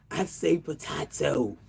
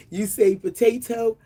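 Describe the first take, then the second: First: Potato said po-TAH-to; potato with a broad ah in the middle. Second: Potato said po-TAY-to; potato with a long ay in the middle. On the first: Host answering herself, po-TAH-to. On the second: Host singsong teasing, po-TAY-to. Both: Shown as a demonstration. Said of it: "pronounced all kinds of ways".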